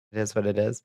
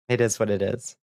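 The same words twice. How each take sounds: The two takes are said the same way.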